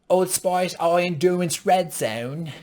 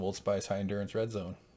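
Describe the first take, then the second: First: It is said in a put-on British accent. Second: It is said in his normal American accent.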